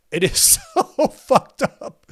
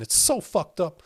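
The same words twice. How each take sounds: First: Slow, higher, louder through a laugh; laughing disbelief. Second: Said in the usual way. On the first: Real, not acted. Streamer laughing at the scandal, slow disbelief. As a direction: stretch it out laughing in shock. Repeats line, then laughs.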